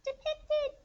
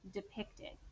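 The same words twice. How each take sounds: First: It is said in a tiny, squeaky voice. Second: It is said in a normal speaking voice. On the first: "How about mouse voice it?" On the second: "Say the word depicted with me"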